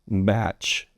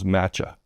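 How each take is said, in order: First: The word ends on the CH consonant. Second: The word ends with an added vowel. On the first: The speaker calls it right. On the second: The speaker calls it wrong.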